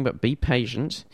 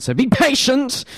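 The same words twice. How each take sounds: First: Said in the usual way. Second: High, loud mock command; playful shout. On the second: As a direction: call out to the listeners playfully. Host teasing waiting listeners.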